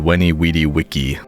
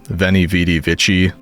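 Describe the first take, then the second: First: Each word begins with a W sound. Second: Each word begins with a V sound. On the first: This may be how Romans actually pronounced it. "V's would be W" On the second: This is the usual modern pronunciation. "we say"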